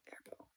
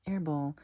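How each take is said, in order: First: Hushed, voiceless aside; barely audible whispered reaction. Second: Higher-pitched voiced reaction; voiced, higher repeat. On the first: Retold or imitated. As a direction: whisper it under your breath. Acted reaction, whispered first take. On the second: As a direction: say it aloud on a high note. Same word, voiced and higher.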